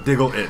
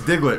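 First: The name is said with three syllables. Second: The name is said with two syllables. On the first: "Like three syllables" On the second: "So it's Diglett"

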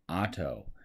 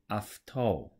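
First: The word begins with a plain 'ah' vowel. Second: The word begins with an 'af' sound. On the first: The speaker calls it wrong. "we just pronounce it ah, like auto" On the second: The speaker calls it right. "it's going to actually make an off, like after sound"

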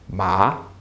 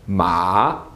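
First: The pitch rises from lower to higher. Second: The pitch dips down and then rises. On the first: "your voice is rising" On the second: "you fall a bit and then you rise back up"

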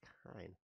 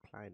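First: The name is said without an L sound. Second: The name is said with an L sound. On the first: The speaker calls it right. "it's Kine" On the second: The speaker calls it wrong. "but it's not Klein"

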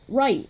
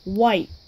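First: The word begins with an R sound. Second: The word begins with a W sound. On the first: The speaker calls it right. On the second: The speaker calls it wrong.

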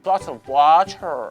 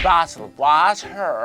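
First: It is pronounced in an exaggerated, affected way. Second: It is pronounced in an exaggerated, affected way.

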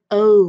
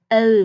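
First: The letter is said in an American accent. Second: The letter is said in a British accent. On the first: "Còn người Mỹ sẽ phát âm là O" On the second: "Người Anh sẽ phát âm là O, hơi điệu một chút"

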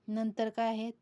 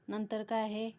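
No difference in how they are said.

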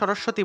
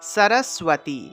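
First: The middle cluster is said without a w glide. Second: The middle cluster is said with a w glide. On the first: This is the everyday Bengali pronunciation. "আমরা তো আসলে বাংলায় সরস্বতী বলি" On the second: This is the Sanskrit pronunciation. "কিন্তু সংস্কৃত ভাষায় উচ্চারণ হবে"

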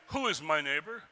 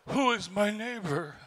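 First: The question sounds precise and lawyerly. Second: The question sounds warm and eager. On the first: The asker wants to limit who counts as neighbor. "all right, exactly, who is my neighbor? Let's be specific here" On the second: The asker wants to embrace the neighbor. "He doesn't say, oh, who is my neighbor? Let me welcome him"

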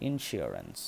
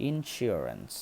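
Both takes have the same delivery.

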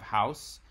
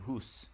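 First: The vowel glides like 'ow'. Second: The vowel is a long 'oo'. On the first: This is the Southern English form. "in Southern English ... you have house" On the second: This is the older Scots form. "as well as in Scots, it stayed the same, so that it became hoose"

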